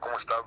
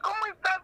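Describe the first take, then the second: First: It is said in a normal adult voice. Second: It is said in a childlike voice.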